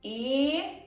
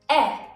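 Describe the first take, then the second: First: The vowel is held long. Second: The vowel is cut short. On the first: "E can be pronounced long" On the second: "or short"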